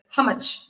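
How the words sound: It still sounds like an American accent. The speaker calls it wrong. "you still sound American"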